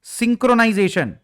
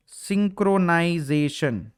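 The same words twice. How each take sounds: First: Said in the usual way. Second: सिंक्रोनाइजेशन drawn out slowly, syllable by syllable; slow dictation. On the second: Shown as a demonstration. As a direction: say सिंक्रोनाइजेशन very slowly so students can write it down. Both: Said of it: "note कर लेना अपने पास".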